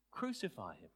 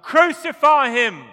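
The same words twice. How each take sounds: First: Said in the usual way. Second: Full-throated roar, much higher and louder; crowd shout. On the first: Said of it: "That's to wake you up". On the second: Retold or imitated. Preacher mimics the crowd before Pilate, full shout. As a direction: bellow it like the mob demanding death. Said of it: "They'd shouted".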